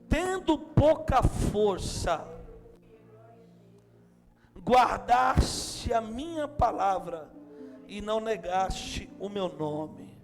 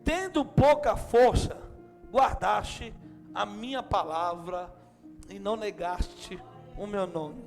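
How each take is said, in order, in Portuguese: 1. A frase é lida muito devagar. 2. A frase é lida em velocidade normal.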